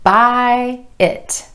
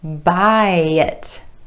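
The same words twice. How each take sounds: First: The two words are said separately. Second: The words are linked with a gentle y sound. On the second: "gliding from that final I vowel sound in buy over to the I in it with a gentle y"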